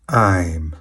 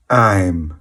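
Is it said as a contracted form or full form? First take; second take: contracted; contracted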